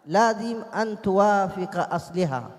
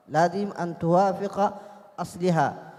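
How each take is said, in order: Both takes have the same delivery.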